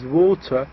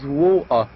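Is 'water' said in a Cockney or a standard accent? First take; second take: standard; Cockney. First: It is said in a standard accent. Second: It is said in a Cockney accent. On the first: "pronounced normally as water in London" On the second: "in Cockney accent"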